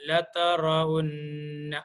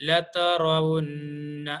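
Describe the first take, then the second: No difference in how they are said.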